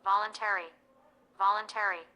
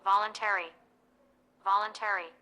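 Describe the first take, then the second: The two takes are said the same way.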